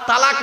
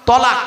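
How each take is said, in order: First: The first vowel is an open 'a' sound. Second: The first vowel is a rounded 'o' sound. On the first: It means joining or coming together. The speaker calls it wrong. "তালাক নয়" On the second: It means separating or divorcing. The speaker calls it right. "শব্দটা হলো তলাক। কি বললাম?"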